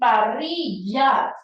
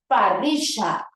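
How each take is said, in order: First: The double L sounds like an English y. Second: The double L sounds like an English sh. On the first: This is how a Peruvian speaker says it. "lo pronunciará con yeísmo" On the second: This is how an Argentine speaker says it. "cambió de Y a she"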